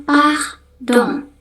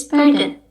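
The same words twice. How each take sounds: First: "pardon" as pahdoŋ, nasal end; French "pardon" with eng ending; French pronunciation. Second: "pardon" as perdan; English "pardon"; English pronunciation. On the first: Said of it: "bahasa Prancis kita ngomongnya". (cara Prancis "pardon") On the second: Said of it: "Dalam bahasa Inggris". (cara Inggris "pardon") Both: Shown as a demonstration.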